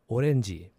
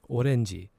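No difference in how they are said.

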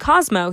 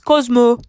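First: The name is said in a plain accent. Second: The name is said in a Scottish accent. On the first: "instead of saying Cosmo" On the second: "with our neighbor's like really heavy Scottish accent, he says"

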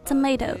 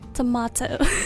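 First: It is said with an American accent. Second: It is said with a British accent. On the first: "发的是美式啊发的是tomato" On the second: "英式发的是"

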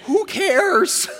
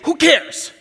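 First: It sounds earnest, like a worried real question. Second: It sounds flat and dismissive, a shrug. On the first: The speaker wonders whether anyone cares about them. "They're really saying" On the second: Nothing here matters to the speaker. "They're learning sarcasm"

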